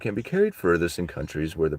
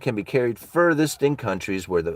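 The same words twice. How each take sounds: First: It is read in a put-on narrator voice. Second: It is read in his ordinary speaking voice.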